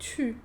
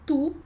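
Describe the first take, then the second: First: The vowel is a front rounded ü sound. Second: The vowel is an ordinary back oo sound. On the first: "em francês a gente diz tu" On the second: "Em português a gente diz tu"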